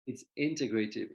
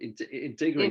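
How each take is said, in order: First: Said in the usual way. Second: Integrative said louder, syllable by syllable; careful integrative. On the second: Shown as a demonstration. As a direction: spell out integrative clearly for the listener. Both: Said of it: "I just wanna make sure people understand".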